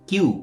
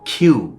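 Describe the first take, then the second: First: The k is said without a puff of air. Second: The k is said with a puff of air. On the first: The speaker calls it wrong. "Milton তো কিউ বলছিল।" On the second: The speaker calls it right. "আবারও ক্ষয়ের মতো।"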